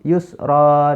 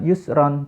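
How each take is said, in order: First: The word ends with a lengthened vowel. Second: The word ends with an n sound. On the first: The speaker calls it right. "tapi yusro, dibaca dua harokat" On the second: The speaker calls it wrong. "dia bacanya bukan yusron"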